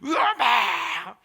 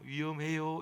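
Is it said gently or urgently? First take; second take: urgently; gently. First: It is said forcefully and urgently. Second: It is said softly and gently.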